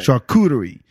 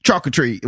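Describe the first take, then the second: First: "charcuterie" as shar-KOO-duh-ree; stress on middle syllable. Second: "charcuterie" as CHALK-uh-tree; stress on first syllable. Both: Shown as a demonstration. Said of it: "put the accent somewhere".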